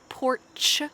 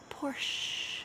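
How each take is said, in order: First: The word ends with a ch sound. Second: The word ends with a sh sound. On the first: The speaker calls it wrong. "we don't say porch. Ch" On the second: The speaker calls it right. "you just say shh. It's a Porsche"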